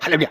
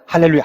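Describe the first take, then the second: First: It is said at a quicker pace. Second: It is said at a moderate pace.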